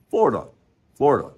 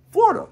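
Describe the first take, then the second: First: Said in the usual way. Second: Florida squeaked very high; high playful Florida. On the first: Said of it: "lower takes after high take". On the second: Shown as a demonstration. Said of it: "playful variations of Florida".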